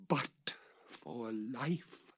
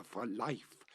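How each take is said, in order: First: Stretched out, pleading slowly; very slow plea. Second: Said in the usual way. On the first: A narrator's reading. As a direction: linger on each word. Repeated, very slow.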